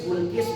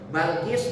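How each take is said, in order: First: The first vowel is a rounded u sound. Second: The first vowel is an open a sound. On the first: "bisa disebut Bulkis" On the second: "Bisa disebut Balkis"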